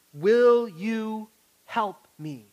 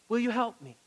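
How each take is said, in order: First: Slow, loud and earnest Will you help me; slow pleading ask. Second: Said in the usual way. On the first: Shown as a demonstration. Pastor teaching the four words, slow and loud. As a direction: lean hard on Will, drawn out and loud. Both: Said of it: "The four words".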